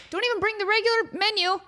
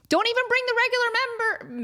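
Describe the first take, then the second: First: Said in the usual way. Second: Slips and says member instead of menu; tongue slip. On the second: Real, not acted. Telling friends the dessert plan, slipping on the word. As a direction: trips over the word member. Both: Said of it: "That's what I meant to say".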